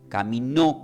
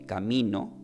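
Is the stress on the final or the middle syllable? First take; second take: final; middle. First: The stress is on the final syllable. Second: The stress is on the middle syllable. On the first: Someone walked with God. "caminó con acento" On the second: It is the way through which one goes. "caminó sin acento"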